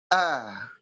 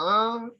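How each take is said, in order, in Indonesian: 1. Vokalnya dimulai dengan tegas, jauh di dalam tenggorokan. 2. Vokalnya keluar lewat hidung. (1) "Yang benar di sini. Ah, tegas" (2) "tidak di hidung"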